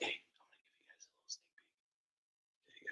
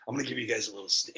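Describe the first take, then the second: First: Hushed secret whisper. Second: Said in the usual way. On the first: Shown as a demonstration. Repeated then whispered.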